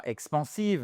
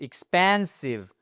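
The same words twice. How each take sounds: First: EXPANSIVE said evenly, French-style, no stressed middle syllable; wrong stress. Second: EXPANSIVE with PAN stressed and drawn out; correct tonic stress. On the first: Teacher shows learners the mistake, misplaced stress. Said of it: "c'est pas expansive". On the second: Teacher shows learners where the stress goes, stressed second syllable. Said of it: "non, c'est expansive". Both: Shown as a demonstration.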